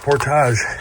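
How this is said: The word has a French pronunciation.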